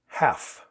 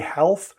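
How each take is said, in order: First: The L is silent, with no L sound. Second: The L sound is pronounced before the F. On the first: The speaker calls it right. "There's a silent letter here" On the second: The speaker calls it wrong. "You will hear some people say health, not very many, and it's it's not standard"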